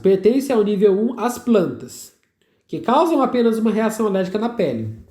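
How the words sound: There is a pause after the word plantas. All plants are said to cause skin allergy. The speaker calls it wrong.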